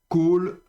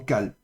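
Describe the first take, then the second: First: The vowel is an 'o' sound. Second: The vowel is an 'a' sound. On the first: The speaker calls it right. "le kametz se prononcera O" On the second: The speaker calls it wrong. "et non kal"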